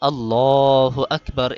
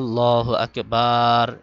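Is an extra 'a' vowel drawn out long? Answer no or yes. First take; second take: no; yes. First: Only the 'lah' of Allah is lengthened. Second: An 'a' vowel is drawn out long. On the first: This is the valid way to say it. The speaker calls it right. "এভাবে পড়তে হবে" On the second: This makes the prayer invalid. The speaker calls it wrong. "এভাবে আতে টান দিলে নামাজ নষ্ট হয়ে যাবে"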